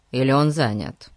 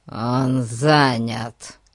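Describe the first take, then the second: First: Said in the usual way. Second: Very slow, drawn-out, hollow reply. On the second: A narrator's reading. Disguised policeman turning the boy away, hollow voice. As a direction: answer dully, stretching each word. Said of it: "глухо ответила физиономия".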